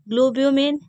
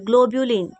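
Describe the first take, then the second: First: The word ends in a 'min' sound. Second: The word ends in a 'lin' sound. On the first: The speaker calls it wrong. "गलत pronunciation" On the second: The speaker calls it right. "Sorry ग्लोब्यूलिन"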